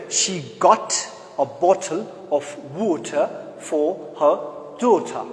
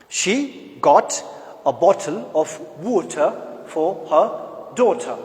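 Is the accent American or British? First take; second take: British; British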